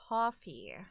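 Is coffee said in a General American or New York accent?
General American. Coffee is said with a General American accent. This takes deliberate effort to say. "I could say coffee, but that, like, I have to, like, think about it"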